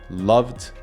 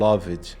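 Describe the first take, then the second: First: The -ed ending adds no extra syllable. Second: The -ed ending is said as an extra syllable. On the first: The speaker calls it right. "A gente não costuma pronunciar o E" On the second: The speaker calls it wrong. "muita gente vai falar loved ... Está errado"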